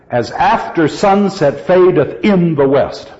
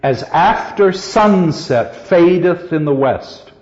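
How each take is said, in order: First: Accent "in" although it is a minor word; metrical stress on IN. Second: Said in the usual way. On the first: Shown as a demonstration. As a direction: beat out the iambs, landing on "in". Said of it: "one accented word that's of no real importance". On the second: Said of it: "it's in the same spot".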